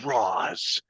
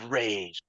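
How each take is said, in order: First: The name is said with an 'ah' vowel. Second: The name is said with an 'ay' vowel. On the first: "there's literally cults out there who are just like it's Roz" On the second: "there's people like it's Rage"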